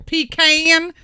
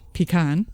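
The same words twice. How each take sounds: First: It is said with a Southern pronunciation. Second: It is said with a New England pronunciation. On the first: "or there's a southern way" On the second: "there's the New England way"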